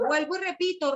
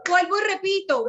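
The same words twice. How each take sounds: First: Said in the usual way. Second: Louder, higher, insisting on every word; emphatic repeat. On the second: Real, not acted. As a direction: hammer home "Vuelvo y repito". ("Vuelvo y repito" recalcado, fuerte y agudo)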